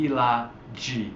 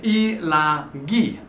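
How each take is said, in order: First: LAGHI said with a soft g, "lah-jee"; wrong soft g. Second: LAGHI slowly, with a hard g, "lah-ghee"; hard g sound. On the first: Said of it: "Without the aka". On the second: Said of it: "So we need that aka". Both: Shown as a demonstration.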